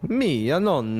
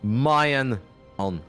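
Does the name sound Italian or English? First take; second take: Italian; English. First: The name is said with an Italian-sounding pronunciation. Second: The name is said with an English-sounding pronunciation. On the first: "that's maybe just the way that I pronounced it" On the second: "then it sounds a whole lot less Italian"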